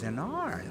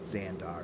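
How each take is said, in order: First: The name has no 'd' sound before the last syllable. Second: The name has a 'd' sound before the last syllable. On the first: The speaker calls it right. "It's, it's Xanar" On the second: The speaker calls it wrong. "no, it's not Xandar"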